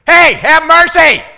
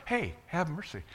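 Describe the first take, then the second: First: Very loud, high, drawn-out scream for mercy; full-throated yell. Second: Soft, casual plea with no urgency; half-hearted call. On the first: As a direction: scream at the top of your lungs. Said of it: "They did it". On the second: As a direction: say it meekly, barely trying to be heard. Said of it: "they didn't just do it". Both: Shown as a demonstration.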